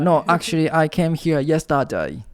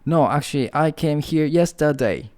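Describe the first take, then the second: First: It is said in an Australian accent. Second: It is said in the speaker's usual accent.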